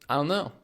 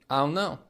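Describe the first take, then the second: The two takes are said the same way.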